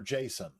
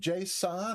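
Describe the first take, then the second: First: It is said like the name Jason. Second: It is said unlike the name Jason.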